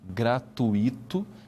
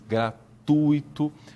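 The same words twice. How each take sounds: First: The stress falls on the i vowel. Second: The stress falls on the u vowel. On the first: The speaker calls it wrong. "não se pode dizer gratuito" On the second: The speaker calls it right. "esse U que está aí é mais forte que o I"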